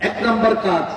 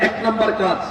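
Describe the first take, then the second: Both takes have the same delivery.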